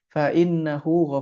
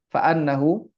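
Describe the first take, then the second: First: The vowel after fa is an i. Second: The vowel after fa is an a. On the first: He is forgiving and merciful. "Kalau di kasrah" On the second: Forgiveness and mercy are obtained. "kalau kita bacanya fathah"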